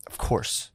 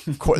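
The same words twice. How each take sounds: First: "of course" breathed in a polite whisper; soft whispered "of course" to a shopper. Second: Said in the usual way. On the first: Shown as a demonstration. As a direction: mutter "of course" under your breath, meekly. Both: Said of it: "I just go like".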